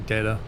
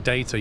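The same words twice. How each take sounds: First: The T is softened and rounded off. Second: The T is said clearly and crisply.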